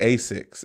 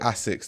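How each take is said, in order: First: It is pronounced in a non-Japanese way. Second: It is pronounced the way Japanese speakers say it. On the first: This is not how the brand's home country says it. The speaker calls it wrong. "They don't say Asics in Japan" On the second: This is how the brand's home country says it. The speaker calls it right. "like Japanese people say Asics"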